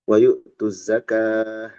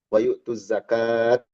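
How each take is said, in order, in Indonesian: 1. Kata terakhir berakhir dengan bunyi h. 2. Kata terakhir berakhir dengan bunyi t. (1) "jadi hak"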